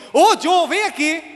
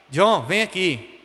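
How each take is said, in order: First: High, loud-starting summons of a cross mother; angry mother. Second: Slow, low-key call to a son; calm mother calling. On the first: Mother with raiva calling her son, angry shout. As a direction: call him over sharply, pitch jumped up. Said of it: "quando minha mãe tava com raiva". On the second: Mother calling her son when tranquil, calm and slow. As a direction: call him over calmly, drawn out. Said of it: "quando ela tava tranquila". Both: Retold or imitated.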